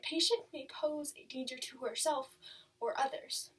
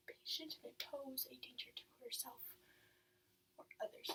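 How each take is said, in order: First: Said in the usual way. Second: Whispered, barely audible repetition; hushed echo. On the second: Acted. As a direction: let the words sink in under your breath. File note echoed to herself.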